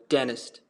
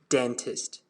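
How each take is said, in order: First: It is said in an American accent. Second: It is said in a British accent. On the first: "But in American, it's going to sound like dentist" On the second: "In standard British English, it's going to sound dentist"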